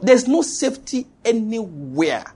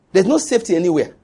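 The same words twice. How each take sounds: First: "There's no safety anywhere" drawn out, higher; slow emphatic repetition. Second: "There's no safety anywhere" said quickly; brisk statement. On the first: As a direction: stretch every word out to "anywhere". Repeated slowly for emphasis. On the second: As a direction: state it briskly in one run. First take, brisk statement. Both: Real, not acted.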